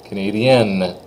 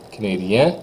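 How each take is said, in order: First: Canadienne with a clear final N; N sounded. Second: Rising canadien without the N; silent N. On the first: Teacher models the form for the girls, N said. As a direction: finish canadienne on the N. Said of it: "If I really hit that N". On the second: Teacher models the boys' form, N unsaid in canadien. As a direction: stop canadien on its vowel. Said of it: "I'm gonna exaggerate it for you". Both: Shown as a demonstration.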